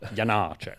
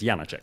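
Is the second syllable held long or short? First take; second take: long; short. First: Short first syllable, then a long second syllable. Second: The second syllable is not held long. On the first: "you have to pronounce it eighth note and dotted quarter note" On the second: "It's Janáček for me"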